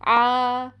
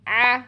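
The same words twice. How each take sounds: First: The throat sound has a light, even buzz. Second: The throat closes fully, giving a clipped catch. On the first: The speaker calls it right. "इसमें पैदा होने वाले वाइब्रेशंस की वजह से सुनाई देती है" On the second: The speaker calls it wrong. "बिल्कुल बंद ही कर देते हैं"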